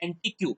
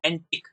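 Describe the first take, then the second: First: The word ends with a 'kyoo' sound. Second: The word ends with a plain 'k' sound. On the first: The speaker calls it wrong. "આને એન્ટિક્યુ વંચાય નહીં" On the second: The speaker calls it right. "ક જ વાંચવાનો છે"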